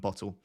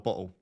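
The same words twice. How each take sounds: First: The middle T is clearly pronounced. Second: The middle T is dropped. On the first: "rather than bottle" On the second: "or bottle rather than bottle... I'll lose my T's"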